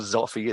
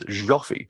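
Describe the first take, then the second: First: The name begins with a z sound. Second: The name begins with a zh sound. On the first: The speaker calls it wrong. "or Zoffy" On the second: The speaker calls it right. "it's like the je in bonjour"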